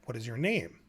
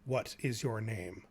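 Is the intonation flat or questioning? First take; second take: questioning; flat. First: The pitch moves like a natural question. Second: The pitch stays flat with little intonation. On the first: The speaker calls it right. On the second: The speaker calls it wrong.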